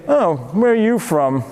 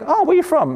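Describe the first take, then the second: First: It is said in a hostile, suspicious tone. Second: It is said in an innocent, friendly tone.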